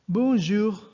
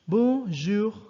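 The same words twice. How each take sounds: No difference in how they are said.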